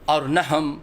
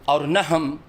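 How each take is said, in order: The two takes are said the same way.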